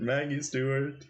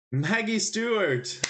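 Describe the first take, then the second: First: Said in the usual way. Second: Much higher and slower, thrilled to have it; excited exclamation. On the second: Real, not acted. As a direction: call the name out like a winning guess. Excited guess at the answer.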